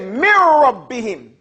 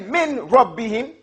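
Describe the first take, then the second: First: The n merges into a doubled r sound. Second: The n is clearly sounded before the r. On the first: The speaker calls it right. "The noon disappears" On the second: The speaker calls it wrong. "You don't say Min Rabbihim"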